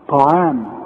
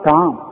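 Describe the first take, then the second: First: The first consonant is a heavy, emphatic t. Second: The first consonant is a plain, thin t. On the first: The speaker calls it right. "الطاء طاء مفخمة" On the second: The speaker calls it wrong. "ما تقولش طعام"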